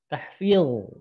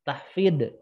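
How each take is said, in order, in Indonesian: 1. Konsonan akhirnya emfatik, pangkal lidah terangkat. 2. Konsonan akhirnya adalah bunyi d. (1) "Harusnya pakai huruf ini, dha ya. ... pangkal lidahnya angkat" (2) "Salah juga"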